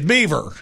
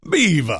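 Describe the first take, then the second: First: The final R sound is pronounced. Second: The final R sound is dropped. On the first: "I don't think they said it like that" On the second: "That's how they said it"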